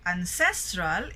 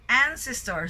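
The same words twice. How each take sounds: First: "ancestral" with CES lifted; second-syllable stress. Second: "Ancestor" with AN pitched high and punched; first-syllable stress. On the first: Teacher distinguishing the two, "ancestral" stressed on CES. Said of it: "it's in the second syllable". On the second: Teacher distinguishing the two, "Ancestor" stressed high on AN. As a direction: hit AN hard in "Ancestor". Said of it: "so first syllable". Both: Shown as a demonstration.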